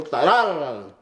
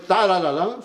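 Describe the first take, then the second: First: "tarararán" with the weight after the first syllable, falling at the end; light first TA, then lean into the rest of "tarararán"; "tarararán" stressed late, as the corrected example; accent on second note. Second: "tarararán" leaning on its first syllable, tune left up; "tarararán" front-stressed, as the wrong example; accent on first note. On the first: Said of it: "en la segunda nota". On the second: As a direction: punch the opening TA of "tarararán". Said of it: "no en la primera". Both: Shown as a demonstration.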